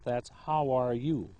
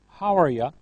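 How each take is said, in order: First: Every word is said fully and clearly. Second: The words are shortened and run together. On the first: "in full form and formal English" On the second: "you heard"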